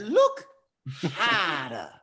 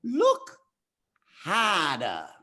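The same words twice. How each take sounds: First: A bigger second go at Rafiki. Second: Put-on old monkey sage voice, pitched up then dropping; a loose Rafiki impression from The Lion King. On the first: Retold or imitated. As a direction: push the old sage voice further, up then down. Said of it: "Did I do that well". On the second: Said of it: "in my best Rafiki voice".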